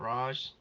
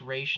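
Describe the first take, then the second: First: The name ends without an 'sh' sound. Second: The name ends with an 'sh' sound. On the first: The speaker calls it wrong. "not Raj" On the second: The speaker calls it right. "that is the correct pronunciation. It's Raish"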